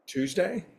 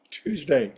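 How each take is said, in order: First: TUESDAY higher with a rising, questioning end. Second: TUESDAY with a falling, settled end; confirming. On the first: Host unsure of the day in his greeting, questioning. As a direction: ask "Tuesday?" with the pitch lifting. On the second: Host answering his own question about the day, confirming. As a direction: state "Tuesday." as a firm answer, pitch dropping. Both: Real, not acted.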